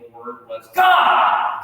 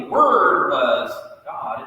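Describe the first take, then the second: First: Slower, weight on God; slowed down, God stressed; emphatic God. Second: Said in the usual way. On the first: Shown as a demonstration. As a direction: lean into God. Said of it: "it's like saying". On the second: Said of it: "It's like saying".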